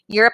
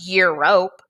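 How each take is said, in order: First: The second vowel is a weak 'uh' sound. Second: The second vowel is a long 'oh' sound. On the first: The speaker calls it right. "Europe is pronounced" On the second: The speaker calls it wrong. "it's not pronounced Europe"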